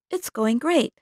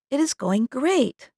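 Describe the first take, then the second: First: It is said fast with words run together. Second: It is said carefully with every word separate. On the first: "In fast speech, it sounds like this" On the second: "they may do it this way"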